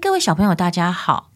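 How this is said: The voice sounds open and freely projected. The speaker calls it right. "你看这个声音是不是比较好？"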